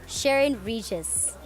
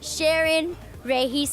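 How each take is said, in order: First: The name is said with the local pronunciation. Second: The name is said with a Filipino pronunciation. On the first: "But here, like" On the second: "in the Philippines. That's how they pronounce it"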